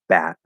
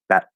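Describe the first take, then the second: First: The word is said slowly and drawn out. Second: The word is said quickly and clipped. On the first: "Instead of saying bat" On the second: "you have to hear it at that super, super fast speed"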